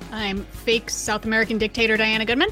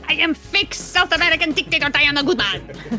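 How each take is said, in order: First: It is said in her natural accent. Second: It is said in an exaggerated fake accent.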